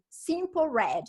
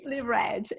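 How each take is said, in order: First: The first word ends with an 'l' sound. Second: The first word ends with an 'ee' sound. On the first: The speaker calls it wrong. "na rádio o locutor falava é" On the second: The speaker calls it right. "que eu aprendi que era é"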